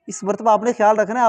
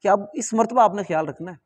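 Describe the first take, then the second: First: इस मरतबा आपने ख्याल रखना है said louder and higher with a rising end; mock family warning, raised and insistent; repeated warning, emphatic. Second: Said in the usual way. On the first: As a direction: press the warning home like family nagging. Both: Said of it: "मुझे सब ने यही कहा था".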